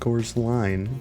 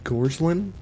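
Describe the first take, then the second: First: The last syllable has a long 'line' sound. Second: The last syllable has a short 'lin' sound. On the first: The speaker calls it wrong. "not Gorsline" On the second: The speaker calls it right. "the last name is said like Gorslin"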